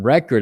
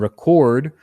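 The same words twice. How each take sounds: First: The stress is on the first syllable. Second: The stress is on the second syllable. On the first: "I'm stressing the first syllable" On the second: "the verb, I'm stressing the second syllable"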